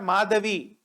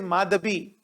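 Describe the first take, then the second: First: The middle consonant is a V sound. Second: The middle consonant is a B sound. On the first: The speaker calls it wrong. "It is not Madhavi" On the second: The speaker calls it right. "it is Madhabi"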